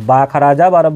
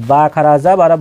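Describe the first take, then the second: No difference in how they are said.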